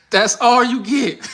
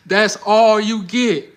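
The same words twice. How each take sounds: First: High, slow, laughing tease; stretched-out laughing come-on; laughing flirt demo. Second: Higher, very slow, loud tease; stretched, drawn-out come-on; slow flirty tease. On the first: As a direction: draw it out through the giggle. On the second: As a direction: drag each word out like a coy Southern woman. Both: Shown as a demonstration. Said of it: "Let me show you again".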